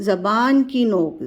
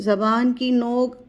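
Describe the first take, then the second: Both takes have the same delivery.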